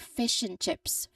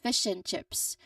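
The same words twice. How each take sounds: First: 'And' shrinks to an n sound, linked smoothly. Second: 'And' shrinks to an n sound, linked smoothly.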